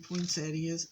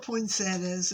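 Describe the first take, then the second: First: It is pronounced the usual standard way. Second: It is pronounced the local Tennessee way.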